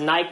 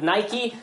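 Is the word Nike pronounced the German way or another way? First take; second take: German; another way. First: The word is pronounced the German way. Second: The word is pronounced a non-German way. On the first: "Germans pronounce it Nike" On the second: "but Nike"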